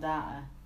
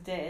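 First: The word is said with an American pronunciation. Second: The word is said with a British pronunciation. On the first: The speaker calls it wrong. "not data. ... Like bloody Americans" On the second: The speaker calls it right. "data is how you pronounce it"

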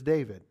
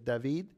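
First: The name is said with an English pronunciation. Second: The name is said with a Spanish pronunciation. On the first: "my name in English is David" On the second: "my name in Spanish is David"

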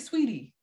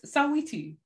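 First: The name is said with two syllables. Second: The name is said with three syllables. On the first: The speaker calls it wrong. "People say Sweetie" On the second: The speaker calls it right. "We say every syllable"

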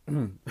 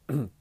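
Both takes have the same delivery.

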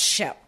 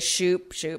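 First: The vowel is a short 'eh' sound. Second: The vowel is a long 'oo' sound. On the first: The speaker calls it right. "it should be pronounced Shep" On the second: The speaker calls it wrong. "everybody is Shoop ... these are wrong"

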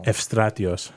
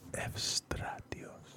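First: The name is said at normal speed. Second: The name is said slowly.

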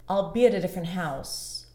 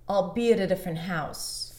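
No difference in how they are said.

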